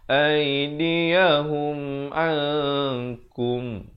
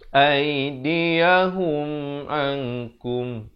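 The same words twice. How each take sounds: First: The n is hidden and held two beats. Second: The n is clear and not held. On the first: The speaker calls it right. "Disembunyikan ataupun disamarkan kadar dua harakat di antara nun dan kaf" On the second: The speaker calls it wrong. "Jangan baca aidiyahum ankum. Salah"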